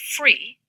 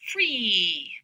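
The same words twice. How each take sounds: First: The vowel has its ordinary length. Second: The vowel is held extra long. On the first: "with the ordinary high front tense vowel E" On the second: "I could make the vowel extra long"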